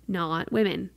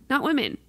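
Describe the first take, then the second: First: Said in the usual way. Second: "Not women" said through a laugh, higher. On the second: Real, not acted. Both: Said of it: "repeats it laughing".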